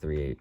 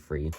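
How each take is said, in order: First: The word begins with a TH sound. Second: The word begins with an F sound. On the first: "instead of three" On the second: "I say free"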